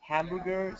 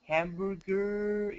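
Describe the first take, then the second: First: The R sound is short and ordinary. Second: The R sound is long and stretched out. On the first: "no decía como hamburger" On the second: "estiraba la R"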